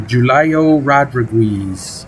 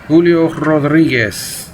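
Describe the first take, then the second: First: The name is said with American pronunciation. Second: The name is said with Spanish pronunciation.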